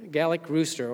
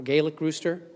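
First: "Gallic" said with a short A, GAL-ik. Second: "Gaelic" said with a long A, GAY-lik. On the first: Preacher unsure how to name the French rooster, "Gallic" as GAL-ik. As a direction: say "Gallic" to rhyme with italic. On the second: Preacher tries the other name for the rooster, "Gaelic" as GAY-lik. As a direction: say "Gaelic" starting like gale. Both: Shown as a demonstration. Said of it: "Gallic rooster or Gaelic rooster".

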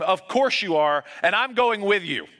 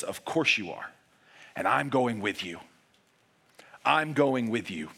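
First: Yelling back. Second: Tender reassurance. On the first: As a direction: shout it back, refusing to be left. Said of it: "And Sam yells back at him". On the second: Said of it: "he stares you back in the face and he says". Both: Retold or imitated.

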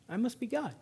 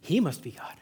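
First: Soft, pitched-up "I must be God"; cat's self-regard. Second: "He must be God" with weight on "He", lower pitch; stress on HE. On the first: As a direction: say "I must be God" quietly, as the cat concluding it is God itself. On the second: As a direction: lean on "He" as the dog crediting its master, then fall. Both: Acted. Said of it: "See the difference?".

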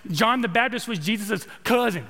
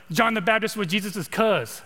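First: Lightly imitated Texas accent. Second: Casual Californian way of talking; California accent. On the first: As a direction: borrow a touch of a friend's Texas twang. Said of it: "He said it in that Texas accent". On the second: Shown as a demonstration. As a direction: say it like a laid-back Californian, in contrast to Texan. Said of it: "I'm from California".

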